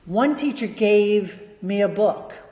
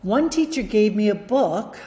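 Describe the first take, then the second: First: There is a pause after the word gave. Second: There is no pause after the word gave. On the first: The speaker calls it wrong. "I put a pause after gave" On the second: The speaker calls it right. "Let's take this guy out"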